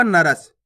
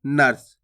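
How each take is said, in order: First: नरस as two syllables, "na-ras"; full "ra" sound. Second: नर्स as one low syllable, "nars"; quick half "r". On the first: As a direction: give the r in नरस its own vowel. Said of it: "पूर्ण रूप से उच्चारण हो जाएगा". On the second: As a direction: run r straight into s in नर्स. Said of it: "तेजी से उच्चारण करना आपको". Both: Shown as a demonstration.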